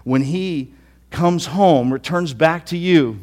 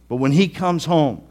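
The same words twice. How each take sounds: First: When he comes home, stretched slowly and loud; slow bitter emphasis. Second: He stressed against us; he in when he comes home said a bit louder. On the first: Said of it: "he's just angry". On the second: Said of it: "not us". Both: Acted.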